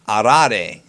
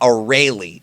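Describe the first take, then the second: First: The name is said the original Japanese way. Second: The name is said the English dub way. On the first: The speaker calls it right. "if you pay attention to how she pronounces it, it's Arare" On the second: The speaker calls it wrong. "not Arale. Arale was the English dub name"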